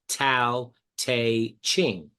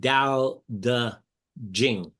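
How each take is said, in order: First: The name starts with a T sound. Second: The name starts with a D sound. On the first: The speaker calls it wrong. "most people would call it Tao Te Ching" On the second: The speaker calls it right. "the correct Chinese pronunciation, the T is a D and the C H is a J"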